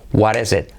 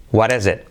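The two takes are said the same way.

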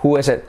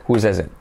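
First: Said in the usual way. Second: "Whose is it" with the S linked into "is"; "Whose" ending in an audible S sound; added S sound. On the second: Shown as a demonstration. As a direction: make the S in "Whose" clearly heard. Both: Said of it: "En inglés es el sonido S".

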